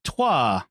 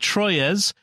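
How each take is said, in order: First: The name is said with a French pronunciation. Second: The name is said with an anglicized pronunciation. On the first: This is how the name is properly pronounced. The speaker calls it right. "which is pronounced Trois" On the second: This is how the listener guesses the host said it. The speaker calls it wrong. "I'll say it the way you might have said it"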